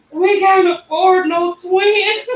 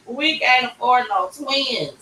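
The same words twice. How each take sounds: First: High, loud, slow mock wail; mother in shock at twins, mock wailing; panicked wail. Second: Said in the usual way. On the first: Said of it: "I'm like". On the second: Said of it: "That's all I can say".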